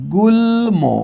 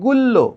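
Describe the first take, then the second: First: The l is followed by an m sound. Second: The l is doubled with no m sound. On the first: The speaker calls it right. "কিন্তু আমরা এটার উচ্চারণ করি কি গুল্ম" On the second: The speaker calls it wrong. "সূত্র অনুসারে হওয়ার কথা গুল্ল, ল দুইবার হওয়ার কথা"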